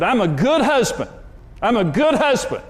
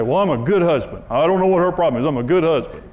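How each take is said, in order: First: Mock angry husband yelling in the car; retold yelling. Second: Self-satisfied whiny protest; smug self-defense. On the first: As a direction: insist on it like you're losing the argument. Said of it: "I was yelling at Karen". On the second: Retold or imitated. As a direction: play the clueless husband who blames his wife. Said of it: "A lot of people say".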